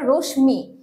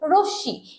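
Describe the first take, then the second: First: The m sound is pronounced after the sh. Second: The sh is doubled and no m is heard. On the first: The speaker calls it wrong. "অনেকে উচ্চারণ করে রশ্মি, এটা কিন্তু একটা ভুল উচ্চারণ" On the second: The speaker calls it right. "এটার উচ্চারণ হবে রশ্মি... উচ্চারণটা দ্বিত হচ্ছে"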